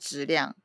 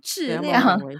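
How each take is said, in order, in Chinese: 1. 这是用台湾普通话口音说的。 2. 这是用大陆普通话口音说的。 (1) "如果是台湾人可能就是讲质量" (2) "如果是大陆人就会讲微信跟质量"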